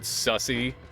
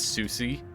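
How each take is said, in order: First: The name is said like 'Sussy'. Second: The name is said like 'Susie'. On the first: It is a joking reading of the name. The speaker calls it wrong. "only only if you pronounce it that way" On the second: It is the proper reading of the name. The speaker calls it right. "Pronouncing it the correct way is still funny"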